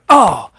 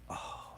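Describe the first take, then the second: First: It is said loudly with strong energy. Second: It is said quietly and laid back.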